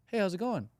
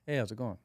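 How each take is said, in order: First: Greeting rising high and light, ending up; chirpy lifted greeting, weak and eager; upward inflection. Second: Settled confident greeting that drops at the close; downward inflection. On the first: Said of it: "It's more like". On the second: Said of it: "calm, cool, collected". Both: Shown as a demonstration.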